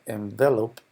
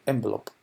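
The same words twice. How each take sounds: First: The stress is on the second syllable. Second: The stress is on the first syllable. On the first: It is the verb meaning to wrap. "con acento en la E, es el verbo" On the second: It is the noun for a paper envelope. "con el acento en la primera E"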